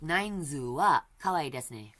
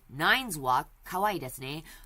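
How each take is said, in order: First: The name is said with Japanese pronunciation. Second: The name is said with English pronunciation. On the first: "I often use the Japanese pronunciation" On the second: "I could use just the English pronunciation"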